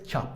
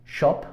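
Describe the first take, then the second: First: American "chop", open vowel; American pronunciation. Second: Shop with a British rounded O; British "shop", short round O; British pronunciation. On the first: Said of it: "en americano es chop". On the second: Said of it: "El sonido O en británico es O". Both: Shown as a demonstration.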